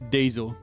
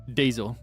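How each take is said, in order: The two takes are said the same way.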